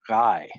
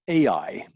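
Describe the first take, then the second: First: The name is said as one syllable. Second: The name is said as two syllables. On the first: The speaker calls it right. "the correct pronunciation is one syllable" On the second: The speaker calls it wrong. "that means they don't know how to pronounce the word"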